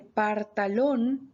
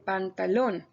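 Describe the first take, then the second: First: The first syllable ends in an r sound. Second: The first syllable ends in an n sound. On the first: The speaker calls it wrong. "la persona que dice partalón" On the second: The speaker calls it right. "en vez de pantalón"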